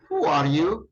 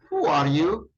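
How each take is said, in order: First: The words run smoothly together as one unit. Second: The same.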